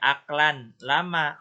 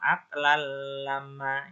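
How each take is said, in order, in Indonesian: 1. Bunyi n diucapkan dengan jelas sebelum l. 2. Bunyi n melebur ke bunyi l setelahnya. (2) "masuk ke huruf setelahnya dilebur"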